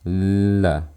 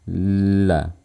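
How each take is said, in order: The two takes are said the same way.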